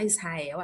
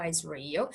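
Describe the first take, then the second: First: "Israel" with h-like r, "is-ha-EL"; Portuguese pronunciation. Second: "Israel" as "IZ-ree-el", English r; English pronunciation. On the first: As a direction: say "Israel" the Brazilian way. Portuguese name set against English. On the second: English name set against Portuguese. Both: Shown as a demonstration.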